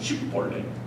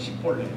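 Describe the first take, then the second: First: The word begins with an sh sound. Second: The word begins with a plain s sound. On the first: The speaker is one of the guards' own people. The speaker calls it right. "쉽볼레라고 해야 되는데" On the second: The speaker is an enemy who cannot say it. The speaker calls it wrong. "그 발음을 잘못해서 십볼레라고 하는"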